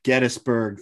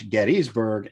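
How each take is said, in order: First: Gettysburg with short middle, GET-is-burg; local pronunciation. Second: Gettysburg with long EE, GET-ees-burg; outsiders' pronunciation. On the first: Co-host recaps both ways of saying it, local pronunciation first. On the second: Co-host recaps both ways of saying it, outsiders' pronunciation. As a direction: stretch the middle of Gettysburg to "ees". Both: Shown as a demonstration. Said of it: "Thanks for dropping that".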